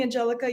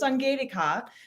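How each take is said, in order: First: The name is pronounced the English way. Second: The name is pronounced the German way. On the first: It is the easier option for listeners. "If that's easier for you" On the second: It honors the original family name. "the German way of saying it"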